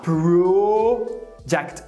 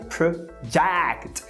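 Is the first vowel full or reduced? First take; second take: full; reduced. First: The first vowel is pronounced as a full O. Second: The first vowel is reduced to a schwa. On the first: The speaker calls it wrong. "você vê o O ali e você quer falar project" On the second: The speaker calls it right. "quando na verdade project. Esse primeiro O é um schwa"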